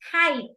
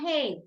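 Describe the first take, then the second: First: The vowel sounds like 'eye'. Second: The vowel sounds like 'ay'. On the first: The speaker calls it right. "Height, no hate" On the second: The speaker calls it wrong. "no hate"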